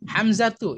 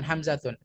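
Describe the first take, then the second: First: The word ends in a plain vowel. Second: The word ends with an added n sound. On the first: The speaker calls it right. "hamzatu ya" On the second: The speaker calls it wrong. "bukan hamzatun"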